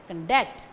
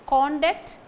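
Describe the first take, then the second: First: ConDUCT, reduced con and strong DUCT; stress on second syllable. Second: CONduct, full strong CON, higher pitched; stress on first syllable. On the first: Lecturer contrasts verb with noun, conDUCT stressed on DUCT. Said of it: "The stress falls on the second". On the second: Lecturer contrasts noun with verb, CONduct stressed on CON. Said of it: "Conduct is the noun". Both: Shown as a demonstration.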